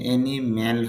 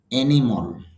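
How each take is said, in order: First: অ্যানিম্যাল with an a vowel in the last syllable; teacher quoting the common mistake to students; wrong pronunciation. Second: অ্যানিমাল ending in a short o-like vowel, no a sound; teacher giving students the right form; correct pronunciation. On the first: Teacher showing the wrong vowel. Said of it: "আসলে অ্যানিম্যাল হবে না". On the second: Teacher modelling the correct vowel. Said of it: "উচ্চারণটা হবে". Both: Shown as a demonstration.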